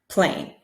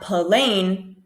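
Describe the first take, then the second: First: The opening consonants are blended together. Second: A small vowel splits the opening consonants. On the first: The speaker calls it right. "but p, p, plain" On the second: The speaker calls it wrong. "So not plain"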